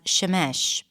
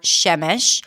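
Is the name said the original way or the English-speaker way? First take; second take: English-speaker; original. First: The name is said as English speakers say it. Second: The name is said in its original pronunciation.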